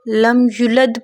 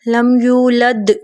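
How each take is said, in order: First: The vowel after the y is short. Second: The vowel after the y is long. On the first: The speaker calls it wrong. "कोई हर्फ कम कर देना" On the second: The speaker calls it right. "कोई हर्फ कम कर देना"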